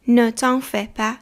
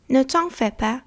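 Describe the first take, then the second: First: Ne t'en fais pas drawn out syllable by syllable; slow, careful repeat. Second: Said in the usual way. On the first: Shown as a demonstration. Teacher to learners, slow model repeat. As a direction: say "Ne t'en fais pas" slowly so they can copy. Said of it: "teacher repeats slowly for learners". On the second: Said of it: "teacher models the phrase".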